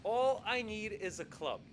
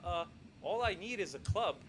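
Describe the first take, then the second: First: Steady, decided, falling close; firm request. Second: Unsure, halting ask; a nervous guest barely daring to ask; hesitant request. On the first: Palmer answering the king's question, firm and sure. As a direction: settle it, this is all he wants. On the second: Palmer stammering his request to the king, hesitant. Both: Retold or imitated. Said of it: "So he just says".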